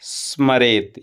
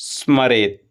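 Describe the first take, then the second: No difference in how they are said.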